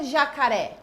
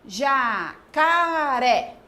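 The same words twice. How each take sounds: First: Said in the usual way. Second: "Jacaré" very slow, stretched out as ja, ca, ré; "Jacaré" pulled apart into three long beats; split into syllables. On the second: Shown as a demonstration. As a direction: draw out each syllable of "Jacaré" for counting. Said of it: "dividindo essas palavras em sílabas".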